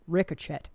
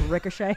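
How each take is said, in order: First: "ricochet" with a hard ch, said as ricotchet; wrong pronunciation. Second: Said in the usual way. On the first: Shown as a demonstration. Friend shows how he read the word wrong, ricotchet. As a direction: mispronounce "ricochet" with a ch sound. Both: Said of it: "I said wrong words in my head".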